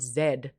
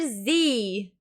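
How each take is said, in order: First: The letter name is said the Australian way. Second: The letter name is said the American way. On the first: This is how Australians say the letter. "We call it Z" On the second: This is how the American show says the letter. "every morning the letter Z"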